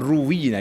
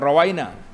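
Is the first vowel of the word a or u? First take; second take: u; a. First: The first vowel is u. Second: The first vowel is a. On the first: It was narrated to us. The speaker calls it right. "ruwina dia baca" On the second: We narrated it. The speaker calls it wrong. "tidak rawaina"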